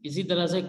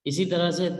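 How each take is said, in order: The two takes are said the same way.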